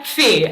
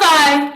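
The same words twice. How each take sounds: First: "phi" said "fee", rhyming with see; correct Greek phi. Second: "phi" said "fai", rhyming with pie; loud, high "phi" pronounced as "fai"; wrong English phi. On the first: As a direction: pronounce "phi" with a long ee. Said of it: "a stickler on this". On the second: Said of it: "There's not phi". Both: Shown as a demonstration.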